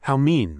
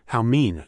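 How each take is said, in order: First: Higher, louder coquettish "How mean!"; coy whine. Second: Wronged whimper. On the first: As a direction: play the frail victim, coyly. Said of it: "twisting her body coquettishly". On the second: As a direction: sulk as if wronged. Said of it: "cried out as if wronged". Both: Acted.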